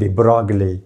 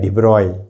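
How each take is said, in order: First: The g sound in the name is pronounced. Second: The g sound in the name is silent. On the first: This is how it is commonly said locally. "हम बोलते हैं डिब्रॉगले" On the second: This is the actual French pronunciation. "हकीकत में क्या है? डिब्रॉय"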